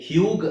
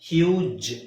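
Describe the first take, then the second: First: The word ends with a hard g sound. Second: The word ends with a j sound. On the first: The speaker calls it wrong. "ಹ್ಯೂಗ್ ಆಗಲ್ಲ" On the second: The speaker calls it right. "ಹ್ಯೂಜ್ ಆಗುತ್ತೆ"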